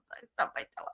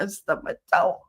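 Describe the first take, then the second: First: Barely voiced, very soft; hushed cover story. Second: Said in the usual way. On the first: Child covering up grandmother's pinch, hushed and strained. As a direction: squeeze it out under your breath.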